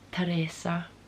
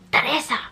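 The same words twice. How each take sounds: First: The name is said calmly. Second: The name is said angrily.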